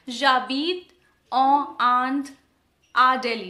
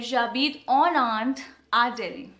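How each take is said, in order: First: En and Inde are said without a linking n. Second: En and Inde are joined by an n sound. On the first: The speaker calls it wrong. "that's why I did not say j'habite en Inde à Delhi" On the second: The speaker calls it right. "I said j'habite en Inde à Delhi. Because we pronounce it N"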